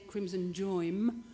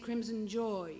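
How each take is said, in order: First: The word ends with the lips closed. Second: The word ends with the mouth open. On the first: The speaker calls it wrong. "you don't say crimson joim" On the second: The speaker calls it right. "you say crimson joy. You end with your mouth open"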